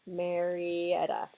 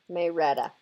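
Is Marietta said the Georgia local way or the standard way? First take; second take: standard; Georgia. First: It is said in a standard, non-local way. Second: It is said the local Georgia way.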